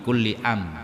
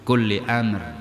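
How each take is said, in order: First: The final r sound is dropped. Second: The final r sound is clearly pronounced. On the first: It turns the word into a question. The speaker calls it wrong. "bukan kulli am" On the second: It means every matter. The speaker calls it right. "bukan kulli am"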